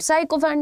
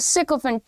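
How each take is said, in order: First: The first syllable sounds like 'sigh'. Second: The first syllable sounds like 'sick'. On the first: The speaker calls it wrong. "साइकोफेंट नहीं है" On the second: The speaker calls it right. "It's a सिकोफेंट"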